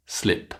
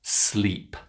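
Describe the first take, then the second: First: "slip" with a short, lax i vowel. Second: "Sleep" with a long, stretched ee vowel. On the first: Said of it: "the long E sound and the short I". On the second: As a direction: say "Sleep" holding a tense long E. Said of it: "can you say these word pairs". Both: Shown as a demonstration.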